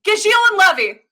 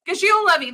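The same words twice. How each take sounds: First: Gajiel and Levy called out high and loud like a title card; announcing the pair. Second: Said in the usual way. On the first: Acted. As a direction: present Gajiel and Levy as the big reveal. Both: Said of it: "oh, I got a list, baby!".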